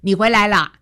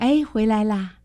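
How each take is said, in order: First: The voice is plain and direct, without breath. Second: The voice is soft with added breathiness.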